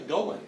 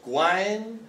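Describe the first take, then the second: First: It is said as two syllables, like 'going'. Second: It is said as one syllable, 'gwine'. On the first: The speaker calls it right. "really, it's probably Gowin" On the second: The speaker calls it wrong. "it's like it's Gwine"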